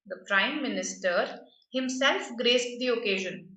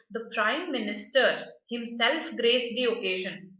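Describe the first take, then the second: First: Himself stands out, said with extra weight; stress on himself. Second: Said in the usual way. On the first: Shown as a demonstration. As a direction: lean on the word himself. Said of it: "I'm just emphasizing". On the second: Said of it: "By adding himself here".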